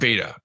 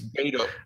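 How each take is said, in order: First: The name ends with an 'ah' vowel. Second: The name ends with an 'oh' vowel. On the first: The speaker calls it wrong. "not Beta" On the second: The speaker calls it right. "I think it's Beto"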